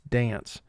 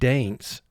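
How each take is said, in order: First: The A is said as a short vowel. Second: The A is said as a long vowel. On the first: The speaker calls it right. "it's dance" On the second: The speaker calls it wrong. "It's not causing the A to be long in dance. It's not dance"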